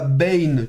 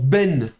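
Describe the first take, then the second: First: The vowel ends in a y-glide. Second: The vowel is a plain e with no glide. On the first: The speaker calls it wrong. "et pas bain, comme on aurait tendance à vouloir le faire" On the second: The speaker calls it right. "ça se prononce ben"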